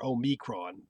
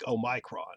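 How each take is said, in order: First: The middle syllable sounds like 'me'. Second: The middle syllable sounds like 'my'. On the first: The speaker calls it right. "ma or me is fine" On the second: The speaker calls it wrong. "The my I don't like"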